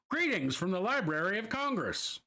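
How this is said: It is read in a mid-Atlantic accent.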